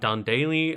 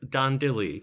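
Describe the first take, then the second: First: The surname is said like 'Daly'. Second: The surname is said like 'Dilly'. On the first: The speaker calls it wrong. "It's not, in fact, Dan Daly" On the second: The speaker calls it right. "I believe it's Dan Dilly"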